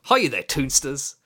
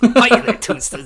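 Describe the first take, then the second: First: It is said in his normal voice. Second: It is said in a put-on Aaron voice.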